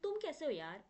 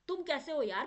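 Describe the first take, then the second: First: It is said in a calm, friendly tone. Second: It is said in an angry tone.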